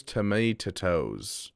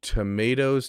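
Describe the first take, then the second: First: "tomatoes" drawn out with an extra "tuh" before "toes"; odd pronunciation. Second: Said in the usual way. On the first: Shown as a demonstration. Streamer puzzling over a chat message, odd drawn-out "tomatoes". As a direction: stretch "tomatoes" slowly into "to-may-tuh-toes". Trying out readings of chat's word.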